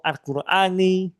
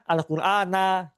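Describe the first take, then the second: First: The word ends with a short i vowel. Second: The word ends with a short a vowel. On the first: "atau Al-Qurani" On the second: "atau apa? Al-Qur'ana gitu"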